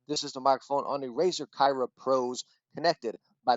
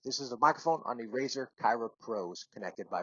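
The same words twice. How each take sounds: First: The audio sounds fairly clean and passable. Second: The audio sounds poor and heavily degraded. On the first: The speaker calls it right. "connected by the U S B C dongle. ... Connected by U S B, I felt like it was decent" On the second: The speaker calls it wrong. "going Bluetooth connected straight through my phone right there, it was horrible"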